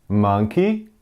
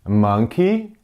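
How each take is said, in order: No difference in how they are said.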